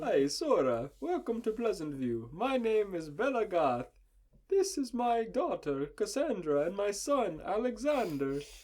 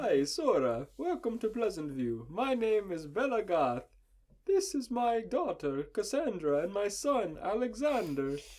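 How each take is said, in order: First: It is said in an Italian accent. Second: It is said in an Italian accent.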